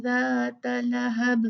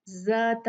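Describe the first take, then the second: First: Says "ज़ात" with the tongue tip at the teeth; correct dhal. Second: "ज़ात" with a buzzing English z; wrong z. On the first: ("ज़ात" में ज़ाल को नरम th जैसा बोलना) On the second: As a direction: says "ज़ात" with the tongue behind the teeth. ("ज़ात" को गलत z की तरह बोलना) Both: Shown as a demonstration. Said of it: "ज़ात नहीं है".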